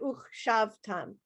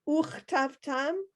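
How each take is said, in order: First: The word has an 'sh' sound after 'uch'. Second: The word has a 't' sound after 'uch'. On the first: The speaker calls it wrong. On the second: The speaker calls it right.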